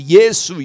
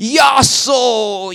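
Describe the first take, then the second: First: The first vowel sounds like 'eh'. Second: The first vowel sounds like 'ah'. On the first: This is the proper Korean form of the name. The speaker calls it right. "which is Yesu" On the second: This is a foreigner's mispronunciation of the name. The speaker calls it wrong. "he was not able to pronounce the name of Jesus in Korean properly"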